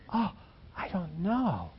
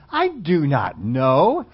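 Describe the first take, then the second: First: It is said mildly, without anger. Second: It is said angrily and defiantly.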